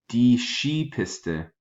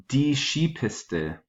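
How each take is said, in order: The two takes are said the same way.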